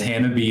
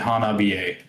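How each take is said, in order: First: The name ends on a plain 'bee' sound. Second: The name ends with an extra 'eh' syllable. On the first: The speaker calls it wrong. "I was saying it as Hanabi" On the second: The speaker calls it right. "you're supposed to pronounce it Hanabiye"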